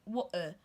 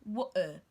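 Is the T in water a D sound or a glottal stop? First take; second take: glottal stop; glottal stop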